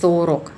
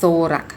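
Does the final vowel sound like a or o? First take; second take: o; a. First: The final vowel is said as a full o. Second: The unstressed final vowel sounds like a. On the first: The speaker calls it wrong. "ไม่ได้อ่านว่า" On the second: The speaker calls it right. "ถ้าไม่เน้นจะออกเป็นสระ r คำนี้อ่านว่า"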